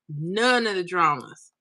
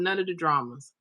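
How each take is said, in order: First: "None" drawn out slowly for emphasis; slow down and lean on "None"; stress on None. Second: Said in the usual way. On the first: Real, not acted. Streamer agreeing on no funeral dramas, "None" stretched emphatically.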